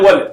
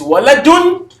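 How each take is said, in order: First: The word ends on the d, no ending. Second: The word ends with a pronounced -un ending. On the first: "That's what I'm silencing them" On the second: "if I want to pronounce the last one"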